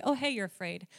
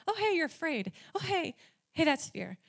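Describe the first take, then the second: First: Said in the usual way. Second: A lightly voiced God, higher and playful; God pointing out her fear in a higher, lighter voice; gentle nudging voice. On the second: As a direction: tap her on the shoulder, high and light. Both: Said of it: "God's been like".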